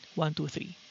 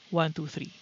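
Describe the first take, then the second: First: The fan noise is partly cut by the gate. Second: The fan noise is mostly cut by the gate. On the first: "noise gate set to twenty-five percent" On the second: "fifty percent noise gate"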